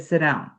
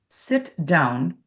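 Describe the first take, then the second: First: The two words are blended together without a gap. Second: A small gap separates the two words. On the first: "which is what Americans would do. We'd blend it right there. We'd link it" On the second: "there's a little space between"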